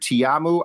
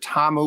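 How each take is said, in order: First: The name is said with three syllables. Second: The name is said with two syllables. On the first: "I heard Tiamu" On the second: "which I think is correct"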